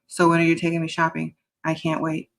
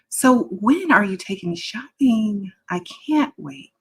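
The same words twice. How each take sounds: First: The voice stays flat in a monotone. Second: The voice moves up and down melodically.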